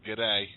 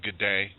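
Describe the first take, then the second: First: The first word is shortened and reduced. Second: The first word is said in full. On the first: "he's just got to shorten that first syllable to gid" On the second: "I'm just going to say good day"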